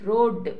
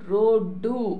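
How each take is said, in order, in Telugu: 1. ఈ పదం హల్లు శబ్దంతో ముగుస్తుంది. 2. ఈ పదం చేర్చిన అచ్చు శబ్దంతో ముగుస్తుంది. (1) "ఇది హల్లుతో అంతమవుతుంది" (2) "అచ్చుతో"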